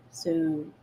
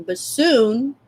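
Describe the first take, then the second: First: Whispered teasing soon. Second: Said in the usual way. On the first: Shown as a demonstration. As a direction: breathe the word soon. Teasing future feature.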